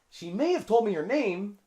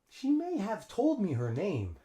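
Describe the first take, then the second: First: The words are linked, with the h dropped. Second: Each word is said separately and fully. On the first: The speaker calls it right. "A native English speaker would say" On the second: The speaker calls it wrong. "Native English speakers don't say that"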